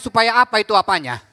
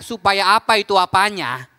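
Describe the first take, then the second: First: The phrase is said at a normal speed. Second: The phrase is said slowly and deliberately.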